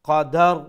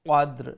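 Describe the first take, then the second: First: A short a vowel is inserted between d and r. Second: Both final consonants are said with no vowel between. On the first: The speaker calls it wrong. "দালের উপরে জবর দিয়া আমি উচ্চারণ করলাম" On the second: The speaker calls it right. "একটারে যজম সাকিন হিসাবে উচ্চারণ করব"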